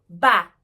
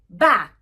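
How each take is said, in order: First: A short uh vowel follows the final k. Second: The word ends cleanly on a voiceless k. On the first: The speaker calls it wrong. "not back, adding this schwa sound" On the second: The speaker calls it right. "We should say back"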